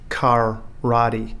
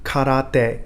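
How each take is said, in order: First: One syllable is stressed more than the others. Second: All three syllables get equal stress and length. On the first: The speaker calls it wrong. "not as we pronounce it in English" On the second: The speaker calls it right. "each syllable is the equivalent of one beat, and therefore should be stressed equally"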